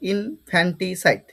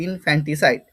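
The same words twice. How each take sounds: First: ইনফ্যান্টিসাইড slowly as in, fan-ti, sait; syllable-by-syllable pronunciation. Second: ইনফ্যান্টিসাইড more connected, in-fanti-sait; pronunciation demo. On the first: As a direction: spell out the sounds of ইনফ্যান্টিসাইড in slow chunks. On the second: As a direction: repeat ইনফ্যান্টিসাইড as a joined word, falling at the end. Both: Shown as a demonstration. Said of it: "pronunciation কি হবে?".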